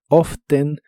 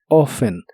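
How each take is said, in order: First: The t sound in the middle is pronounced. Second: The t sound in the middle is silent. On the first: "puedes pronunciarla tal como está escrita" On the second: "o sin la letra T"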